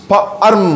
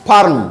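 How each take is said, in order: First: ফা, short break, আর্ম; sounded out. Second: ফার্ম in one falling syllable; blended word. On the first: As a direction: split the word into ফা and আর্ম. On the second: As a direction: say ফার্ম whole, no break. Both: Shown as a demonstration. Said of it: "একই রকম similar উদাহরণ".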